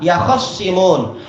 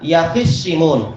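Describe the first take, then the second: First: An a vowel follows the kh sound. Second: An i vowel follows the kh sound. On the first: "dibaca dengan kha yang di fathah" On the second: "wa kasriha"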